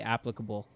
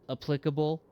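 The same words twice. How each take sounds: First: The stress is on the first syllable. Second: The stress is on the second syllable. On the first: "you catch me in the right mood and I'll say applicable" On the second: "the pronunciation of apply should maybe, ironically, apply to applicable"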